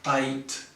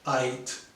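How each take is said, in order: Both takes have the same delivery.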